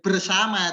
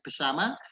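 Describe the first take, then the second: First: The r in the first syllable is pronounced. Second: The r in the first syllable is dropped. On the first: The speaker calls it right. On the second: The speaker calls it wrong.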